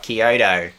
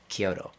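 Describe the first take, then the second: First: It is said with an English pronunciation. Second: It is said with a Japanese pronunciation. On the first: "So I'll go like, oh" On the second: "knows how to say the words correctly in like Japanese"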